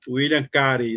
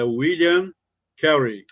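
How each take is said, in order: First: The name is said with northern Brazilian Portuguese sounds. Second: The name is said in an English-like way.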